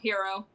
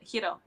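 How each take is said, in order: First: The R is a plain English R. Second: The R is rolled a little. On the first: "you could just call him Hero" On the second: "roll the R a little bit"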